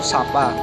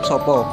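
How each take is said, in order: First: Both vowels are said as a clear 'a' sound. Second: Both vowels are said as an 'o' sound. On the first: This is how Ngapak speakers say it. "dalam Ngapak kata tersebut akan terucap dengan huruf A yang jelas" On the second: This is how people from Jogja say it. "dibandingkan dengan orang Jogja"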